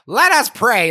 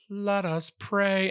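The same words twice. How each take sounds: First: It is said in a cranky old neighbor-lady voice. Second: It is said in a solemn priestly liturgical voice.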